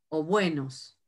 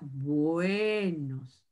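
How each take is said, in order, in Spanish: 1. La vocal E se dice rápido y corta. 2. La vocal E se alarga y es larga. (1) "la E corta" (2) "la E larga ... se extiende un poquito más el sonido"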